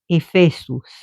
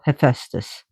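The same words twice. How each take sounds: First: The name is said with a Greek pronunciation. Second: The name is said with an English pronunciation. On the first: This is how it is said in Greek. "But I was pronouncing the Greek names" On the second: This is how it is said locally in English. "which we call Hephaestus here"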